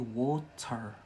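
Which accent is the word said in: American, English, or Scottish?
Scottish. The word is said in a Scottish accent. "here in Scotland we say water"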